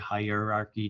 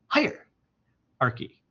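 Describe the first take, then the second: First: It is said flat, like a robot. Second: It is said with a strong push.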